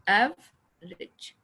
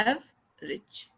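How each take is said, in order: No difference in how they are said.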